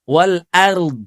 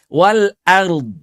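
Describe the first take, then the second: Both takes have the same delivery.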